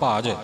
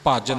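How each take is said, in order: First: The word is said softly and lightly. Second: The word is said with a hard, forceful consonant. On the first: The speaker calls it right. "ਭਜ ਪੋਲਾ ਬੋਲਣਾ" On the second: The speaker calls it wrong. "ਭਜ ਨਹੀਂ ਕਰਨਾ"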